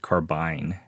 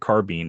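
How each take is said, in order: First: The word is said the British way. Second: The word is said the American way. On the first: "in the U K, he pronounces it carbine" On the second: "in the U S, we pronounce it carbine"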